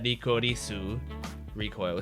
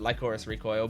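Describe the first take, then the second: First: The title is said with Japanese-style pronunciation. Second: The title is said with English pronunciation. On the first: "the logo had" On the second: "if it was in English, I would pronounce it"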